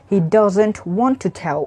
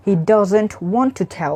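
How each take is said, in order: First: The words 'want to' are said separately in full. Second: The words 'want to' are said separately in full.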